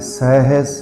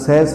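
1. ਸ਼ਬਦ ਹੌਲੀ ਅਤੇ ਧਿਆਨ ਨਾਲ ਬੋਲਿਆ ਜਾਂਦਾ ਹੈ। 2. ਸ਼ਬਦ ਤੇਜ਼ੀ ਅਤੇ ਕਾਹਲੀ ਨਾਲ ਬੋਲਿਆ ਜਾਂਦਾ ਹੈ। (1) "ਹਾਹਾ ਵਿੱਚ ਬੜੇ ਪਿਆਰ ਨਾਲ ਪੜ੍ਹਨਾ ਹੈ" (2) "ਕਾਹਲੀ ਨਾਲ ਸਹਿਸ ਨਹੀਂ ਪੜ੍ਹਨਾ"

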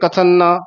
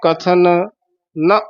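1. ਦੋਵੇਂ n ਆਵਾਜ਼ਾਂ ਇੱਕ ਵਿੱਚ ਰਲ ਜਾਂਦੀਆਂ ਹਨ। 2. ਦੋਵੇਂ n ਆਵਾਜ਼ਾਂ ਸਾਫ਼ ਵੱਖ-ਵੱਖ ਰੱਖੀਆਂ ਜਾਂਦੀਆਂ ਹਨ।

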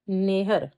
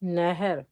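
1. ਸਵਰ ਦੀ ਆਵਾਜ਼ n ਤੋਂ ਬਿਲਕੁਲ ਬਾਅਦ ਆਉਂਦੀ ਹੈ। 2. ਸਵਰ ਦੀ ਆਵਾਜ਼ h ਤੋਂ ਬਿਲਕੁਲ ਬਾਅਦ ਆਉਂਦੀ ਹੈ। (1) "ਜੇ ਆਪਾਂ ਨੰਨੇ ਨੂੰ ਸਿਹਾਰੀ ਲਾਤੀ ਹੈ ਕੀ ਬਣ ਜੂਗਾ" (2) "ਪਰ ਆਪਾਂ ਕੀ ਲਿਖਣਾ ਹੈ?"

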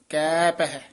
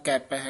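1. ਦੋਵੇਂ ਸ਼ਬਦ ਹੌਲੀ ਲਮਕਾ ਕੇ ਕਹੇ ਜਾਂਦੇ ਹਨ। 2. ਦੋਵੇਂ ਸ਼ਬਦ ਬਿਨਾਂ ਰੁਕੇ ਇਕੱਠੇ ਕਹੇ ਜਾਂਦੇ ਹਨ। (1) "ਇਹ ਲਮਕਾ ਕੇ ਉਚਾਰਨ ਕਰਨਾ ਹੈ" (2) "ਨਾ ਕਹਿਣਾ ਕੈਪ ਹੈ ਇਕੱਠਾ"

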